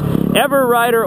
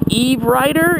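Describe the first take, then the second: First: The name begins with the sound 'ever'. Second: The name begins with the sound 'eve'. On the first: The speaker calls it right. "you know, it's Everwriter Org" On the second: The speaker calls it wrong. "for a while there, I was like Eve Writer"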